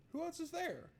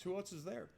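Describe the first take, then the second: First: Voce in falsetto, beffarda; squeaky mock voice. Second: Said in the usual way.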